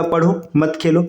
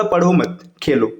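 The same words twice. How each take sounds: First: पढ़ो, then a break, then मत खेलो together; pause after पढ़ो. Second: पढ़ो मत together, then a break before Khelo; pause after मत. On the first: Teacher showing that one must study, pause after पढ़ो. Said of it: "जब आपने ऐसा बोला". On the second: Teacher moving the comma to reverse the meaning, pause after मत. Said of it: "विराम चिन्ह को जैसे ही बदल दिया". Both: Shown as a demonstration.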